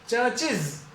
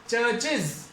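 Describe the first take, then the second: No difference in how they are said.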